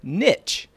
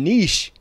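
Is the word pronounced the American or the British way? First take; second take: American; British. First: The word has the American pronunciation. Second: The word has the British pronunciation. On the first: "officially pronounced niche in American and Canadian English" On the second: "and niche in British English"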